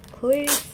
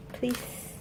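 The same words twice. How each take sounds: First: Louder, voiced begging; insistent, hopeful plea; eager plea. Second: Soft whispered begging; hushed, hopeful plea. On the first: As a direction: beg out loud for luck. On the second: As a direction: whisper it like a wish. Begging for one more card. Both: Real, not acted.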